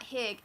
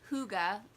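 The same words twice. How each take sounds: First: It is read the way the English spelling suggests. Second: It is read unlike the English spelling suggests. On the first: The speaker calls it wrong. "it's not Hygge" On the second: The speaker calls it right. "it's Hygge. It has the pronunciation on the front"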